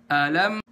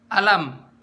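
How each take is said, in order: First: "Alam" with the first vowel given its whole beat; full-beat hamzah. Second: "alam" with a clipped first vowel; half-beat hamzah. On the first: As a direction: give "A" a full count before lifting to "lam". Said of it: "harusnya kan alam". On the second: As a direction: rush the "a" of "alam" into the lam. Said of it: "ini setengah harokat". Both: Shown as a demonstration.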